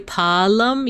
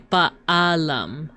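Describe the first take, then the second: First: The two vowels blend into one long vowel. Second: The two vowels are said as separate syllables. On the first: The speaker calls it wrong. "you wouldn't say pa'alam" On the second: The speaker calls it right. "you would say ba'alam"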